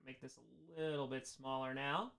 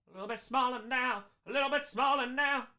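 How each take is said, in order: First: Low, very soft talk to self; quiet aside. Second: Sung, higher, soft singsong repeated and climbing; half-sing it, lifting the pitch on the repeat; sung, playful singsong. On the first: Real, not acted. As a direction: say it quietly to yourself. First take, to himself while adjusting. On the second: Pretend. Chants it as a playful riff.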